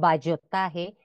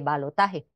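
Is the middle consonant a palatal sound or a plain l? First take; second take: palatal; plain l. First: The middle consonant is a palatal ll sound. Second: The middle consonant is a plain l sound. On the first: The speaker calls it wrong. "se escribe con elle, le diríamos ballotaje" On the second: The speaker calls it right. "se debe escribir es con L"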